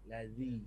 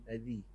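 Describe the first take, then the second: The two takes are said the same way.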